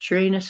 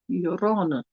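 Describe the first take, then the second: First: It is said the jokey, rude-sounding way. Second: It is said the more dignified way. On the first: It makes a rude joke of the name. "where all the swamp gas comes" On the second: It avoids the rude joke. "it's a little more dignified"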